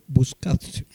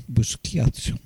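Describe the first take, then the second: First: Buscazio as boos-KAT-so, missing the "kya"; slow try at Buscazio without the i-glide; mistaken name attempt. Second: Busquiazzo as boos-KYAT-so, softer; corrected name attempt. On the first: Host struggling with a player's surname, tentative attempt. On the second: Host correcting his own try at a surname, softer retry. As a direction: correct it to Busquiazzo with a "kya" glide. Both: Shown as a demonstration. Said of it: "No, está ahí complicado".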